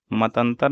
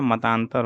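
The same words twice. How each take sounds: First: मतंतर with short middle "a"; wrong short vowel. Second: Said in the usual way. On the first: Shown as a demonstration. Teacher showing the wrong form, मतंतर with short vowel. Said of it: "नहीं होता है". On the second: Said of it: "मतांतर होता है".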